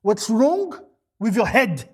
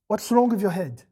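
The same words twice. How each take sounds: First: Louder, pressing rebuke. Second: Plain, level rebuke. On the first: Preacher to the congregation, a louder rebuke. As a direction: demand it of them. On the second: Preacher to the parents, a plain rebuke. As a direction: ask it evenly. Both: Pretend. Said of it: "the absolute minimum you wanna ask".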